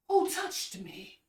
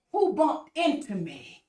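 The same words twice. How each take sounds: First: Soft slow quote. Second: Slow wrong quote. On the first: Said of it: "Jesus said". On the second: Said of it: "Jesus did not say". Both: Retold or imitated.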